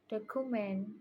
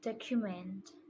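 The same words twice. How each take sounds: First: Every syllable gets the same stress. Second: One syllable is stressed more than others. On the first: The speaker calls it wrong. "I pronounce it document" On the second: The speaker calls it right. "the correct pronunciation is document"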